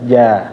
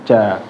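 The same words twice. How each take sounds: First: The tongue touches lightly with a relaxed j. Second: The tongue presses hard, giving a forceful j. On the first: The speaker calls it right. "Tapi lemes aja" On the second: The speaker calls it wrong. "Kalau terlalu ditekan"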